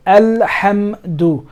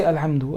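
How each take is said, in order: First: Alhamdu slow, split al-ham-du; letters hitting. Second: Alhamdu run through quickly with a weak ham; wrong, unemphasized. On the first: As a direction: hit the closed m of alhamdu slowly. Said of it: "it sounds like the two word letters are two, are hitting". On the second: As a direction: gloss over the m of alhamdu. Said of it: "You don't say". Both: Shown as a demonstration.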